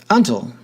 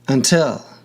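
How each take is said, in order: First: The stress is on the first syllable. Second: The stress is on the second syllable. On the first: The speaker calls it wrong. "Otherwise, ... until would be pronounced" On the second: The speaker calls it right. "in this case on the final syllable"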